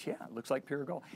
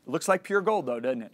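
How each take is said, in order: First: Said in the usual way. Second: Leading question. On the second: Retold or imitated. God prompting the speaker about his gold ring, leading question. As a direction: press for agreement, voicing God retold.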